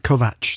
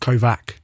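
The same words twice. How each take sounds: First: The name ends with a 'ch' sound. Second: The name ends with a 'k' sound. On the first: The speaker calls it right. "Devin said the atch. Is that right?" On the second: The speaker calls it wrong.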